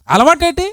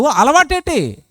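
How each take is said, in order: First: అలవాటేటి? higher, rising sharply at the end; rising outraged question. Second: అలవాటేటి? said with a falling, scornful tune; falling question. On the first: The preacher asks the congregation in disbelief, అలవాటేటి? rising high. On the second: The preacher scorns habitual sin, అలవాటేటి? falling. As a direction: ask అలవాటేటి? dropping at the end. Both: Shown as a demonstration.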